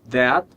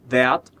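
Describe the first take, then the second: First: The word ends cleanly on the consonant. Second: The same.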